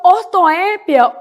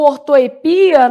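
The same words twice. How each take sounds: First: Ortoépia with a strong open É; stress on the É. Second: Ortoepia stressed on PI. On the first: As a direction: hit the É in ortoépia. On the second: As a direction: lean on the I in ortoepia. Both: Shown as a demonstration. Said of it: "também posso chamar de ortoepia".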